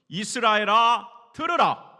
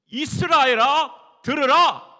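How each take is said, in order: First: It is said in a plain, flat way. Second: It is said in an earnest, pleading way.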